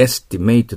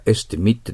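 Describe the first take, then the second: First: Estimate said as es-ti-MATE, ending like "mate"; verb estimate. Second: Estimate said as ES-ti-mit, ending short; noun estimate. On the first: Teacher shows the verb reading, estimate as es-ti-MATE. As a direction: estimate with a long ei sound at the end. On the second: Teacher shows the noun reading, estimate as ES-ti-mit. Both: Shown as a demonstration. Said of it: "estimateって発音するか".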